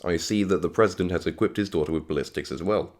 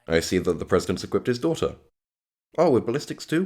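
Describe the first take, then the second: First: It is said as one continuous sentence. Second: It is split into two separate statements.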